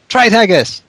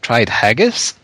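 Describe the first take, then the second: First: The pitch falls at the end. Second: The pitch rises at the end. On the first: The speaker calls it right. "There we go, that's better" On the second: The speaker calls it wrong. "did I say that with the Australian upward inflection?"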